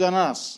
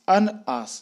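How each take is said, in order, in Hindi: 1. n सीधे अगले स्वर में जुड़ जाता है। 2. n के बाद दोनों शब्द अलग रहते हैं। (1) "अंग्रेज ... बोलता है अनास" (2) "हम बोलते ... अन और आस को हम अलग अलग कर देते हैं"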